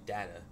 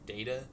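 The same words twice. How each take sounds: First: The first vowel sounds like the vowel in 'dead'. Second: The first vowel sounds like the vowel in 'day'. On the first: "like dead ass" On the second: "like day"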